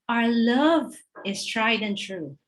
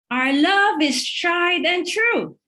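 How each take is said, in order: First: It is said at a normal, quiet volume. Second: It is shouted in frustration.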